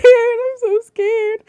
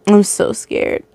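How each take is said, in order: First: Much higher, slow whimpering whine; mock whimper. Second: Said in the usual way. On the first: Reader hamming up fear, slow high whimper. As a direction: stretch it out like a scared child. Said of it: "repeats in mock voices". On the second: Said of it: "I'm so scared (retakes)".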